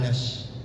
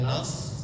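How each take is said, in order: First: It is said with a hushing sh sound. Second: It is said with a heavy, rounded s sound. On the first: "bukan nash" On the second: "bukan sod"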